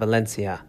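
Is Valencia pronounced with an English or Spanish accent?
English. The name is said with an English pronunciation. The speaker calls it wrong. "not Valencia"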